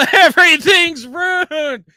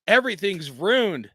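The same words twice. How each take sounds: First: Slow, high, loud wail through a laugh; mock-despairing shout. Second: Said in the usual way. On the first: Real, not acted. Vlogger wailing to his viewers over a ruined night, a slow hammed-up shout. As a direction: ham up the tragedy at full volume.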